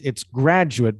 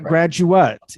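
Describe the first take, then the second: First: The stress falls on the first syllable. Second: The stress falls on a later syllable. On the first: The speaker calls it right. "the stress on the first syllable" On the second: The speaker calls it wrong. "it's not graduate"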